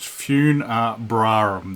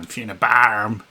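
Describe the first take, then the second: First: Both R sounds are clearly pronounced. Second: One R sound is dropped, said lazily. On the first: The speaker calls it right. "it should be pronounced Funebrarum. There's two R's" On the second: The speaker calls it wrong. "I was just doing Funebrarum. True Aussie lazy style"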